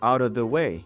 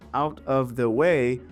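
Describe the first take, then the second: First: The T is a soft, D-like flap. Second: The T is a crisp, full T sound. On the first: "but rather out of the way" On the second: "she doesn't say out of the way"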